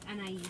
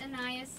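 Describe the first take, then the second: First: The name is pronounced with a French pronunciation. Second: The name is pronounced with an English pronunciation. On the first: "but in French it's Anais" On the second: "It's Anais in the English language"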